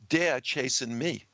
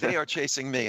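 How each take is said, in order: First: It is spoken in a New York accent. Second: It is spoken without a New York accent. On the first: "I would put on my best New York accent and say" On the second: "translation, non-New York accent"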